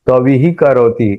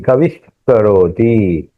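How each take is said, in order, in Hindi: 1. अंतिम ध्वनि एक सादा, फुसफुसाता हुआ 'h' है। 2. अंतिम ध्वनि एक हल्की, गले से निकलने वाली 'kh' जैसी रगड़ वाली ध्वनि है।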